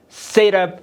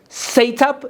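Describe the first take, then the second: First: It is said in an American accent. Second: It is said in a British accent. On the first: "Set up is an American accent" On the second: "Set up is British"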